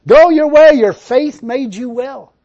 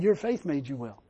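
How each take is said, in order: First: Loud, slow proclamation; proclaiming. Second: Softer, lower retelling; quiet restatement. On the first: Preacher proclaims Jesus' words to the congregation, loud and slow. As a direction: ring it out slowly. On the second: Preacher quietly repeats Jesus' words to make his point. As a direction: say it softly. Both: Retold or imitated.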